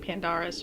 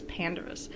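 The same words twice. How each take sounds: First: The stress falls on a later syllable. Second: The stress falls on the first syllable. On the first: The speaker calls it wrong. "I was pronouncing it wrong" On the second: The speaker calls it right. "you're supposed to emphasize that first syllable"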